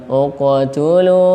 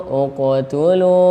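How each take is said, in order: No difference in how they are said.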